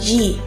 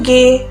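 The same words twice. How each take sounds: First: The letter is named the English way. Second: The letter is named the Indonesian way. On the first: The speaker calls it wrong. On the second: The speaker calls it right.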